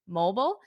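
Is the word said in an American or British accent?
American. It is said with an American accent. "One is American"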